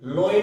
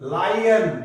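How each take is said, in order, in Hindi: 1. पहला स्वर 'low' जैसा बोला जाता है। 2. पहला स्वर 'lie' जैसा बोला जाता है।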